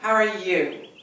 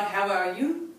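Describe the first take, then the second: First: The pitch falls at the end. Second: The pitch rises at the end. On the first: The speaker calls it right. "throwing it down at the end" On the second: The speaker calls it wrong. "not how are you, ... not rising"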